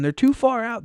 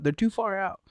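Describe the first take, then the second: First: Louder take. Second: Softer repeat. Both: Retold or imitated. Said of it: "And he's like".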